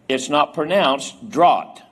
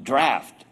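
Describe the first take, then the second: First: The vowel rhymes with caught. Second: The vowel is like the one in after. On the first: The speaker calls it wrong. "It's not pronounced draught" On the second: The speaker calls it right. "It's pronounced draft"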